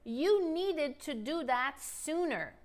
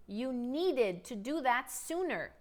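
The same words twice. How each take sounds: First: Slow, clear model sentence; deliberate teacher pacing; slow model line. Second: Slow, careful repeat; deliberate teacher pacing. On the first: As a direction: model it slowly. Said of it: "Let's spice things up". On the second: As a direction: say it again slowly. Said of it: "Let's talk about the past". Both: Shown as a demonstration.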